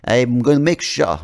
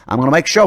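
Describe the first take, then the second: First: Slow, loud Australian gone Russian; accent slipping into Russian. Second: Put-on loud, higher, pushy Aussie accent; mock Australian accent. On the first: Acted. Australian leader threatening a player, accent slipping into Russian. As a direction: let the Aussie accent drift toward Russian. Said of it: "I don't know why he suddenly became Russian". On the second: Australian leader threatening a player, restored Aussie accent. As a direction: reassert a broad Australian accent. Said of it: "because I'm Australian".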